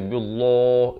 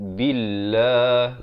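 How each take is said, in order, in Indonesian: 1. Bunyi 'l' itu berat dan tebal. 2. Bunyi 'l' itu ringan dan tipis. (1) "jangan baca billah, itu tebal" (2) "lafz jalalah ini dibaca nipis"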